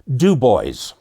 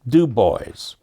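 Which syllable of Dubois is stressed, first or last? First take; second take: first; first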